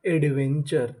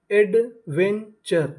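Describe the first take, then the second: First: Said in the usual way. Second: adventure stretched out very slowly, falling at the end; slow drawn-out model word. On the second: Shown as a demonstration. Teacher to students, blending adventure slowly. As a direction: spell out adventure slowly and deliberately. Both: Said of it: "तो meaning बनी".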